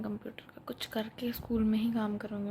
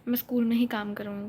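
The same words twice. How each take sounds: First: Same words, now unvoiced whisper; whispered restatement. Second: Said in the usual way. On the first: Real, not acted. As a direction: drop to a whisper to repeat. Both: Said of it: "repeated in a whisper".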